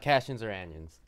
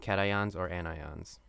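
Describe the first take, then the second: First: Both words have an odd, silly-sounding pronunciation. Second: Both words have their standard pronunciation. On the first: The speaker calls it wrong. "not cations or anions" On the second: The speaker calls it right. "Call them cations or anions"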